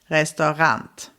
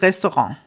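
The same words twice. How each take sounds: First: The word has a German pronunciation. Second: The word has a French-like pronunciation. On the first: This is how it is said in Germany. "I believe Germans would probably say more like Restaurant" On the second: This is how it is said in Austria. "In Austria, we actually use the French pronunciation for this word"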